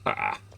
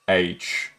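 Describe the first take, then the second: First: The letter is said as 'ha'. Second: The letter is said as 'aitch'. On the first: "In Dutch we say ha" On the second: "that's how I say it"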